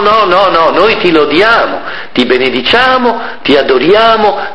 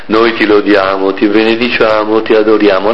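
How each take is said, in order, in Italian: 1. Si dice con un tono gioioso e vivace. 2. Si dice con un tono triste e cupo.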